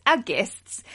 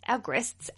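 First: Said in the usual way. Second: "guests" said as "grests", with a stray r; slip on guests. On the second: Real, not acted. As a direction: stumble on "guests", slipping in an r: "grests". Misread word, repeated to fix it.

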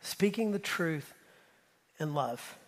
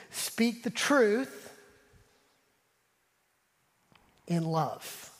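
First: Slower, softer, fading on love; soft echo of the verse; gentle repeat. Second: Each word drawn out slowly and weighted; a slow proclamation, stressing truth; slow emphatic quote. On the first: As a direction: say it tenderly this time. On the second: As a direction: lean hard on truth, then settle on love. Quoting Ephesians, then repeating it. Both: Shown as a demonstration.

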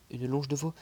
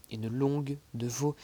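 First: "longe" said without g, the correction; "longe" read correctly after the slip; corrected reading. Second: "longue" said with a hard g, the slip; "longue" instead of longe, a misread. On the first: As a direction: fix it to "longe". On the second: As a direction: read "longue" with the g. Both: Real, not acted.

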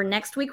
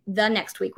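First: Said in the usual way. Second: The next week with the leaned on to correct it; stress on the. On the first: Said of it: "not next week, the next week". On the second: Shown as a demonstration. Host correcting herself to viewers, stressing the. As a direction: push the word the, as in the week after. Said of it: "not next week".

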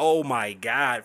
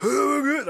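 First: Said in the usual way. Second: High, squeaky mock gasp; the small voice straining to sound big, much higher; squeaky Floyd. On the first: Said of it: "I was like". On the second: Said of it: "So Floyd is like".

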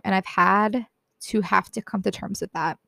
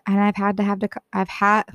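First: Said in the usual way. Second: Trips over the words and cuts off; a flubbed first try, breaking off mid-word; stumbling take. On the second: Real, not acted. Teen vlogger fumbling her line before retrying, tripping over words. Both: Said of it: "let me try that one more time".

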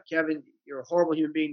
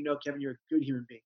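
First: Quick self-critical remark at normal volume; retold negative self-talk, quick and matter-of-fact; inner critic. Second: Quick, soft reassurance to himself; understated, softened self-affirmation; positive self-correction. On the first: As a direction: scold yourself briskly, without raising the voice. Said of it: "negative inner critical voice". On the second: Retold or imitated. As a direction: correct the inner critic quietly and quickly. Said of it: "into something positive about yourself".

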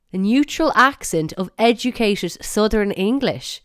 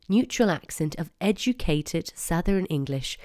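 First: Loud, high, incredulous repeat; outraged. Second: Said in the usual way. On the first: Real, not acted. Podcaster repeating the app's blurb to listeners, outraged. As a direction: throw the phrase back in indignation. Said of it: "I'm outraged". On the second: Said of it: "Wait till you hear the blurb".

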